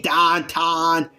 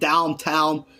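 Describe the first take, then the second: First: The word is said in a Pittsburgh accent. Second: The word is said in a standard accent. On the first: "we say downtown" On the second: "Instead of saying downtown"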